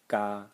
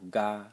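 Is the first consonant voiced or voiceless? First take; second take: voiceless; voiced. First: The g at the start is voiceless. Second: The g at the start is fully voiced. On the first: The speaker calls it right. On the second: The speaker calls it wrong. "I would read it"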